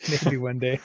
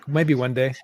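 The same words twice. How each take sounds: First: Laughing softly. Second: Said in the usual way. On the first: Real, not acted. Repeats it through a laugh.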